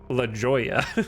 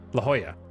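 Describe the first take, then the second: First: The J is pronounced like an English J. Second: The J is pronounced like an H sound. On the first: The speaker calls it wrong. "what a American brain wants to say there" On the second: The speaker calls it right. "Nice job hitting La Jolla correctly"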